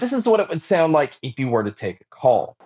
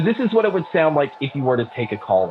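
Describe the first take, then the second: First: The voice is heard without background crowd noise. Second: The voice is heard over background crowd noise. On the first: "here is the mic test using the Skullcandy Mod X T" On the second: "here's the mic test for the crowd noise being played"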